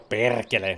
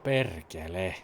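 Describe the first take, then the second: First: It is said in an angry tone. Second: It is said in a sad tone.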